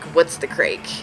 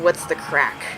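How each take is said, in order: First: The last word rhymes with 'make'. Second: The last word rhymes with 'back'. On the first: The speaker calls it wrong. "That's how Alex pronounces it" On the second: The speaker calls it right. "apparently it's actually what's the crack"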